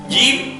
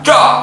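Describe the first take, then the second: First: It is made with the tongue middle raised. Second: It is made too far back in the mouth. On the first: The speaker calls it right. "lidah bagian tengah diangkat kena langit-langit mulut yang atas" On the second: The speaker calls it wrong. "atau terlalu ke dalam"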